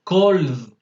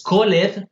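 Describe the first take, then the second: First: COLD as one drawn-out syllable ending in D. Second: CALLED in two syllables, "call-ed"; sounded E. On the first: Teacher corrects the mistake, COLD with only a D ending. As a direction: drop the E, just add D: COLD. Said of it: "Le ponen la D y ya". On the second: Teacher shows the mistake, CALLED with its E pronounced. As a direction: wrongly voice the E in CALLED, "coh-led". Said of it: "No es called, sino cold". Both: Shown as a demonstration.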